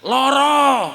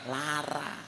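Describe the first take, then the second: First: The word ends in an O sound, Jogja style. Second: The word ends in an A sound, Ngapak style.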